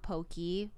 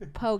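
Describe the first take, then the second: First: The word ends with an 'ee' sound. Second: The word does not end with an 'ee' sound. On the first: The speaker calls it wrong. "not pokey" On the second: The speaker calls it right. "Please, poke. The raw fish is poke"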